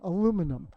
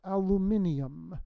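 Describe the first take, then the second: First: It is said with four syllables, ending '-inum'. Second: It is said with five syllables, ending '-inium'. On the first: This is how only the United States says it. The speaker calls it wrong. "There's only one country that pronounces it aluminum" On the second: This is how the rest of the world says it. The speaker calls it right. "everywhere in the world it's pronounced aluminium"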